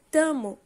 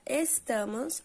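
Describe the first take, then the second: First: The word is shortened, dropping es- and -s. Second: The word is said with all its syllables. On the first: "em tamo" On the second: "que antes era estamos"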